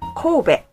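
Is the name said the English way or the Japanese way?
Japanese. The name is said in a Japanese way. This is how the name is said in Japan. The speaker calls it right. "we pronounce it Kobe"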